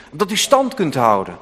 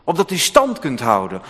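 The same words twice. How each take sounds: The two takes are said the same way.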